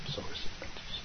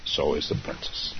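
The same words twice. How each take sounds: First: Soft whispered aside; whispering. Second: Said in the usual way. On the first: Shown as a demonstration. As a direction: whisper it under your breath. Repeats line, then whispers it.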